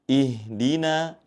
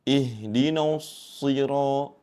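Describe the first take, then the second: First: Ihdina with the nun kept thin and light. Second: Ihdinas sira with the na wrongly thickened by the sod; heavy na. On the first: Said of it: "namun yang betul tetap dibaca tipis". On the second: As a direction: show the mistake: ihdina pulled heavy toward sirat. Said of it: "Sehingga membacanya seperti ini". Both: Shown as a demonstration.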